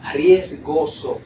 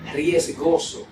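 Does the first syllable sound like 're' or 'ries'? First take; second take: ries; ries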